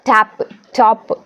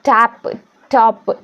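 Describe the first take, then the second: The two takes are said the same way.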